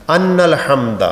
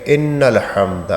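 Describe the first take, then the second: First: "ان" said "anna", with a instead of i; wrong vowel. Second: "ان" said "inna", with a clear i; slow, careful "ان الحمد" opening on a long "inn"; correct vowel. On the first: Retold or imitated. Teacher imitating bus driver's talbiyah, "ان" mispronounced as "anna". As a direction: imitate the driver's "ان الحمد" opening on a stressed "an". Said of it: "زیر کی بجائے جہاں زیر ہونی چاہیے اس کو زبر". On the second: Shown as a demonstration. Teacher modelling the talbiyah, "ان" slowly pronounced "inna". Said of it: "میں نے عرض کیا نا".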